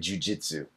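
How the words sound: It is said with an English pronunciation. "what we say jujitsu in English"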